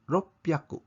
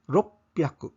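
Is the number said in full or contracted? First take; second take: contracted; contracted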